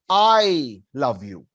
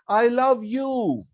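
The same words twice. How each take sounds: First: The stress is on "I". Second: The stress is on "you".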